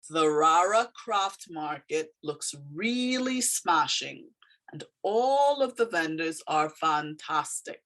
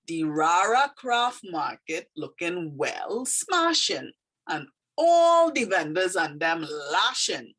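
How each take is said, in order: First: Said in the usual way. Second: Slow Trini dialect with drawn-out key words. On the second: Shown as a demonstration. Teacher reading a poem aloud to learners, in Trini dialect. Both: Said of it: "it kind of is dialect".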